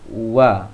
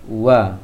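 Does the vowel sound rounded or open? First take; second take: open; open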